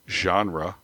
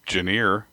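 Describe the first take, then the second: First: The word is said in the usual, standard pronunciation. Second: The word is said in a former, nonstandard pronunciation. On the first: The speaker calls it right. "instead of genre" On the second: The speaker calls it wrong. "I used to say genre"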